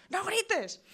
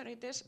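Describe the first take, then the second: First: "¡No grites!" shouted much higher and louder; shouted order. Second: Said in the usual way. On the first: Shown as a demonstration. Parent yelling at a child not to shout, ironic loud shout. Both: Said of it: "normalmente decimos".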